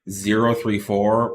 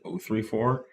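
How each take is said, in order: First: The first digit is said as zero. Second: The first digit is said as oh. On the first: It sounds more professional and technical. The speaker calls it right. "pronouncing the numbers zero three four was more of an engineering uh, take" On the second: It is the casual way of reading the number. The speaker calls it wrong. "instead of saying zero three four"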